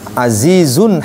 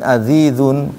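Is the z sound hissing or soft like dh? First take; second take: hissing; soft dh. First: The z is pronounced with a clear hiss. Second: The z lacks a hiss, sounding like dh. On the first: The speaker calls it right. "Makanya dia harus ada desisnya" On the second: The speaker calls it wrong. "nggak ada desisnya, maka masuk ke dzal"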